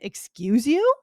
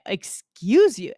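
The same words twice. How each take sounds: First: The voice rises at the end like a question. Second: The voice falls at the end like a statement. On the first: "I guess you could put a question" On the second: "I usually say"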